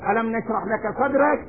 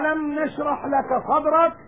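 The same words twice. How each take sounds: First: It is recited quickly without careful articulation. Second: It is recited slowly with careful articulation. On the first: The speaker calls it wrong. "لا كما يوجد من بعضنا اليوم" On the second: The speaker calls it right. "نقرأ كلام الله تعالى بالتجويد"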